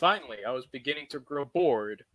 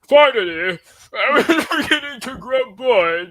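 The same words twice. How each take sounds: First: It is said in the speaker's normal accent. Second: It is said in a put-on British accent.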